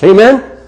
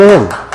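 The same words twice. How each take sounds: First: "Amen?" with rising pitch; call-and-response prompt, "Amen" lifted as a question. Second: "Amen" with a falling close; settled "Amen" answering the congregation; affirming amen. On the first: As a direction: ask "Amen?" for a response, higher. Preacher asks congregation to respond. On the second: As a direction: confirm "Amen" as a statement, pitch dropping. Preacher confirms after congregation answers. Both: Real, not acted.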